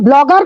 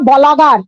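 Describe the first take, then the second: First: The b and l are said together as a cluster. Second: An extra vowel breaks up the b and l. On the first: The speaker calls it right. "Not প্রনাউন্সিয়েশনে এত একটা ব্লগার কথাটা বেরোয় না" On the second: The speaker calls it wrong. "ওই মাতাল এত ভুল বলেছে"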